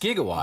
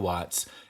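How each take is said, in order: First: The word begins with a hard G sound. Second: The word begins with a J sound. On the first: The speaker calls it right. "And it's just gigawatts" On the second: The speaker calls it wrong. "I thought it was a made up word that started with a J"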